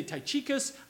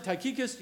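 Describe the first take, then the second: First: Tychicus with a ch sound, "tie-CHEE-kus"; alternative pronunciation. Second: Tychicus with a hard k, "tie-KEE-kus"; preferred pronunciation. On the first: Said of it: "You can say Tychicus". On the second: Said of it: "that's how I pronounce it". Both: Shown as a demonstration.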